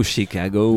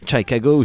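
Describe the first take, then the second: First: "Chicago" begun as SHEE-cago, rising at the end; French pronunciation. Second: "Chicago" begun as SHA-cago, rising at the end; alternative pronunciation. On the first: Radio host correcting the band's city, "Chicago" said SHEE-cago. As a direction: say "Chicago" with "shee" as first syllable. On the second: Radio host trying the band's city, "Chicago" said SHA-cago. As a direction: say "Chicago" with an open "sha" first syllable. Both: Shown as a demonstration.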